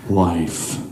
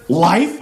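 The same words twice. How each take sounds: First: Very low, subdued deadpan; deep, toneless announcement. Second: LIFE as a rising, disbelieving question; louder, incredulous rise. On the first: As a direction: drop the word LIFE like a dud. Deadpan naming of the dull cereal. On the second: Incredulous repeat of the cereal name. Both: Acted.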